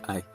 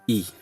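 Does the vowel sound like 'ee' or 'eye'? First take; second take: eye; ee. First: The vowel sounds like 'eye'. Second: The vowel sounds like 'ee'. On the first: The speaker calls it wrong. "not I" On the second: The speaker calls it right. "I in Swahili I is pronounced as E"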